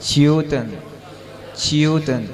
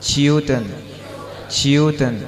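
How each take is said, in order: Both takes have the same delivery.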